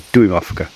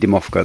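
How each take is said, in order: First: The word begins with a 'duim' sound. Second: The word begins with a plain 'dim' sound. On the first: The speaker calls it right. "they're Duimovka" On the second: The speaker calls it wrong. "I've been saying that wrong"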